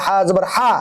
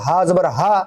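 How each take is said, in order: First: হা with rough throat friction; throaty Arabic হা; rasping ha. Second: হা with a light, easy h; plain breath-like হা; soft ha. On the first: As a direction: squeeze the h of হা in the throat. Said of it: "এটা হলো খসখসা". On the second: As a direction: say হা openly, without rasp. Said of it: "হা আর হা দুটার মাঝে পার্থক্য আছে". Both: Shown as a demonstration.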